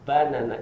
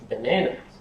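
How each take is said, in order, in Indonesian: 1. Tekanannya tidak pada suku kata tengah. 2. Tekanannya ada pada suku kata tengah. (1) "orang Jepang itu mengatakan pisang ... Salah" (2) "stresnya pada silabel yang ini, yang kedua ini"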